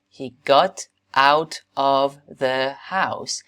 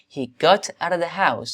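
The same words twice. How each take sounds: First: The words are said separately and more slowly. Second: The words run together and are said faster.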